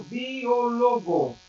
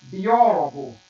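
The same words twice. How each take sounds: First: Biólogo said slowly with stress moved to LO; Esperanto stress on biólogo. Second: Biólogo with a loud Ó, falling away after it; Portuguese stress on biólogo. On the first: Teacher contrasting with Portuguese, slow biólogo stressed on LO. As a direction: draw out biólogo, leaning on the next-to-last syllable, LO. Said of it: "Em Esperanto". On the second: Teacher giving the Portuguese word, biólogo stressed loudly on Ó. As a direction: punch the second syllable of biólogo, Ó. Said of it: "Em português". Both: Shown as a demonstration.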